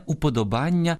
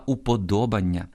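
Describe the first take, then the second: First: Уподобання stressed on -БАН-; wrong stress. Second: Уподобання stressed on -ДО-; correct stress. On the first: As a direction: hit the next-to-last syllable of уподобання. (наголос на -бан-: уподобання) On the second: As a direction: hit ДО in уподобання. (наголос на -до-: уподобання) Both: Shown as a demonstration. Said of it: "але не уподобання".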